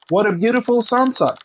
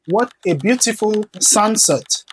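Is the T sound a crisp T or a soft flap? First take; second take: soft flap; crisp T. First: The T sounds are soft, D-like flaps. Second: The T sounds are crisp, clear T sounds. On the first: The speaker calls it right. "Vous allez plutôt dire" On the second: The speaker calls it wrong. "Au lieu de dire"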